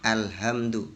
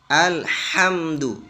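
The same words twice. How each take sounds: First: The h is a light, plain breathy sound. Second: The h is pushed from a narrowed throat. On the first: The speaker calls it wrong. "mesti kebanyakan ya orang-orang itu membaca alhamdu" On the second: The speaker calls it right. "Padahal itu huruf ha besar ya"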